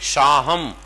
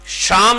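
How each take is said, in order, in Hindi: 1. नाम में स्वर के बाद 'h' ध्वनि है। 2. नाम में स्वर के बाद 'h' ध्वनि नहीं है। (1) "वो बोलेंगे शाहम" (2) "शाम नहीं बोलेंगे"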